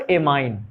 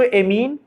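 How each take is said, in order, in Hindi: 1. दूसरा स्वर 'eye' जैसा बोला जाता है। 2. दूसरा स्वर 'ee' जैसा बोला जाता है। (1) "एमाइन से भी ठीक है" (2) "उच्चारण एमीन से भी ठीक है"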